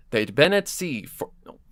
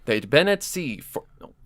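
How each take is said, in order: Both takes have the same delivery.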